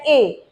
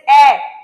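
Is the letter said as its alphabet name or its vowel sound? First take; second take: alphabet name; vowel sound. First: The letter is said as its alphabet name. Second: The letter is said as its vowel sound. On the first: "whenever we say A, B, C, D, we, we say it like A" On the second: "whenever we go for the vowel sounds, okay, then we will say it as A"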